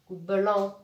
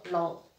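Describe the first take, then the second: First: "blanc" with B and L run together; blended syllable. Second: "blanc" reduced to just "lan", without the B; second sound alone. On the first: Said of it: "B fait seconde". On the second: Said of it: "L, en". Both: Shown as a demonstration.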